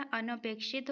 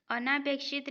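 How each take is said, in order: First: अनपेक्षित with short "na"; अनपेक्षित, second vowel short; correct short vowel. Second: अनापेक्षित with long "naa"; अनापेक्षित, second vowel long; wrong long vowel. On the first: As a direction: say अनपेक्षित as a-na-pekshit. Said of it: "होता है". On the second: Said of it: "नहीं होता". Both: Shown as a demonstration.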